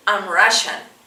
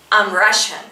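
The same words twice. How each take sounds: The two takes are said the same way.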